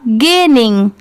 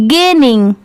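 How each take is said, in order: Both takes have the same delivery.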